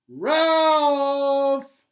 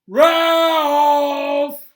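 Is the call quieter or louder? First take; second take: quieter; louder. First: The name is called at normal loudness. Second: The name is called out more loudly.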